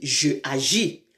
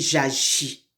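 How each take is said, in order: First: The vowel of je is kept before the verb. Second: The vowel of je is dropped and linked. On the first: The speaker calls it wrong. "On ne peut pas dire je agis" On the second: The speaker calls it right. "on dit j'agis"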